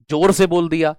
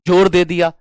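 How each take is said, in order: First: Said in the usual way. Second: जोर hit louder, the rest falls away; जोर said with extra force; stress on जोर. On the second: Shown as a demonstration. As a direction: punch जोर. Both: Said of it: "किसी शब्द पर बल दे दिया ज्यादा".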